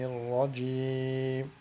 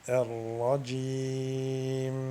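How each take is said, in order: First: The final nasal m is cut very short. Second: The final nasal m is held too long. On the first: "la faire très courte" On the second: "prolonger le ghunna"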